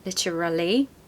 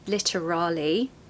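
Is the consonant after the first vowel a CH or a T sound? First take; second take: T sound; T sound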